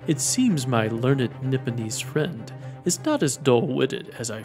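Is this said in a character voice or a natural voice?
character voice. It is said in a put-on character voice. The speaker calls it right.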